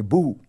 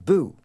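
First: The vowel is a back, rounded oo sound. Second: The vowel is fronted, like French u. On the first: This is the older way of saying it. "a ghost used to say boo" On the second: This is the current way of saying it. "today everywhere in North America the ghost says boo"

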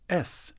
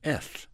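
First: The s sound is a clear, sharp hiss. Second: The s sound is lisped, tongue between teeth. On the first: The speaker calls it right. "this is how you say S" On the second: The speaker calls it wrong. "you're saying S"

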